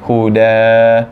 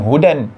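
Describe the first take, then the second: First: The word ends with a long a vowel. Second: The word ends with an n sound. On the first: The speaker calls it right. "tapi huda" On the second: The speaker calls it wrong. "Dia bukan baca dengan hudan"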